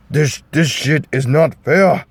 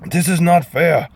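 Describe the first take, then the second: First: Mock Scottish ogre voice, higher; a clumsy Shrek voice, more like a bad Russian; hammed-up ogre whining it's not fair; bad Shrek impression. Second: High, whiny mock ogre; badly done Shrek voice, pitched way up; bad Shrek impression. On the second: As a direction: squeak out a hammed-up Shrek complaint. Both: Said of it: "pardon my Shrek impersonation".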